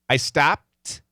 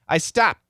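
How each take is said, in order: First: The final T is fully released. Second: The final T is held without release. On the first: "we can finish it" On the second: "or we could stop it"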